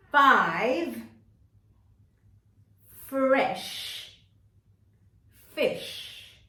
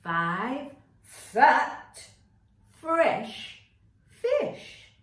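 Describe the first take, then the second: First: Five, fresh and fish each said apart and punched loud; loud deliberate words. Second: Five fat fresh fish each punched loud, fish rising high; loud deliberate words. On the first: Teacher modelling the twister for the class, each word punched. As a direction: hit every f word slowly and clearly. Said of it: "We're going to say". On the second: Teacher leading the whole class, loud and deliberate. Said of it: "say the whole thing together". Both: Shown as a demonstration.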